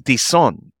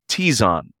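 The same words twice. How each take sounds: First: The Z is soft, almost like an S. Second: The Z is strong, with first-syllable stress. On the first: "that Z is kind of a soft Z, almost sounds like a S" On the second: "the accent being on that first syllable and that Z being stronger"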